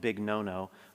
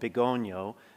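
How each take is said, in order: First: The name ends with a repeated 'no-no' sound. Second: The name ends with an 'ny' sound, 'gohn-yo'. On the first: The speaker calls it wrong. "I kept mistakenly calling it" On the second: The speaker calls it right. "It's called"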